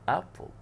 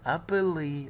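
First: The word ends without a final vowel sound. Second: The word ends with an added final vowel sound. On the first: The speaker calls it right. "لا تنطق ابل" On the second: The speaker calls it wrong. "ما قلتش ابلي"

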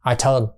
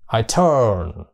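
First: 'Turn' is short and clipped in one beat. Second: 'Turn' is drawn out over two beats. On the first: The speaker calls it wrong. "Mình thì mình cứ đọc là turn" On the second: The speaker calls it right. "người Mỹ... thơ, thơ từ, thơ, rồi mới in một cái turn"

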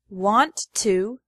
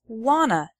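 First: Both words are said fully and separately. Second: The words blend into one reduced word, wanna.

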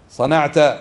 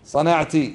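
First: The word ends with a short a vowel. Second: The word ends with a short i vowel. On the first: A man being addressed did it. "والمخاطب ماذا يقال له؟" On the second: A woman being addressed did it. "والمخاطبة ماذا يقال لها؟"

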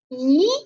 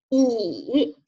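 First: The pitch rises from middle to high. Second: The pitch dips low then rises. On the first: "二声是向上扬的，读咦咦" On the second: "三声呢，读乙"

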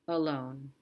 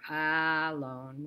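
First: The first vowel is a short, weak schwa. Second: The first vowel is a full 'a' sound. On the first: The speaker calls it right. "This is the sound you make when you say about, alone" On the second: The speaker calls it wrong. "we don't say about or alone"

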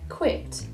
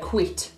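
First: The vowel is a short, relaxed 'ih' sound. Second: The vowel is a more forward, 'ee'-like sound. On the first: "in RP, you might say things like quit" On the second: "in Birmingham, we say quit"

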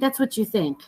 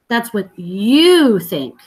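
First: The word 'you' is not stressed. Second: The word 'you' is stressed. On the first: "instead of saying" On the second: "notice this word you"

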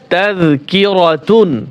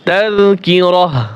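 First: The word ends with a t sound and -un. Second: The word ends with a soft h sound. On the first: The reader continues without stopping on the word. "মূলত ছিল কি? তাযকিরাতুন" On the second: The reader stops on this word. "ওয়াকফ করলে এখানে উচ্চারণ হবে তাযকিরাহ"

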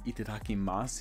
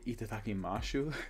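First: The ending has a plain s sound. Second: The ending has an sh sound. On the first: The usual way of saying it. "instead of saying itadakimasu" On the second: One person's quirky way of saying it. "he'd say itadakimashu"

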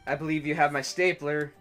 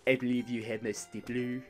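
First: It is said in his normal voice. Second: It is said in an impression of Milton.

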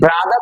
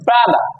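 First: The final r sound is pronounced. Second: The final r sound is dropped. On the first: "আমরা বলি ব্রাদার" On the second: "ব্রিটিশটা আর এর উচ্চারণটা কম করে।"

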